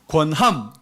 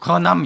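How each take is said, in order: First: The word is pronounced clearly and distinctly. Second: The word is pronounced unclearly and indistinctly. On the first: The speaker calls it right. "권함 맞죠? 들리죠?" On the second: The speaker calls it wrong. "권함이 권함 이렇게 들려서 발음을 명확하게 하라고"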